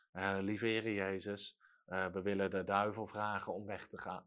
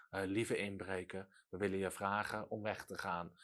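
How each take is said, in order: First: Small, much softer and lower, timid; meek timid prayer. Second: Much softer and lower, apologetic; meek timid plea. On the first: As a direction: pray meekly as if afraid to disturb. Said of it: "je gaat niet zachtmoedig om met de duivel". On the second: Mocking a timid plea to a burglar, meek and soft. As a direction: ask the burglar politely and shyly. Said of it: "dat doe je ook niet bij een inbreker". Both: Retold or imitated.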